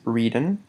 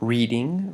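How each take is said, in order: First: The ending is said without a final g sound. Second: The ending is said fully with a final g sound. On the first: It is the more informal style. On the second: It is the more formal style.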